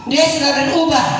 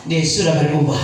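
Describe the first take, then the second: First: "Dia sudah berubah" said higher and louder, DIA punched; emphatic repeat. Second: Said in the usual way. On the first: Shown as a demonstration. Preacher repeating to congregation, emphatic. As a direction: drive home "Dia" with a raised, loud voice.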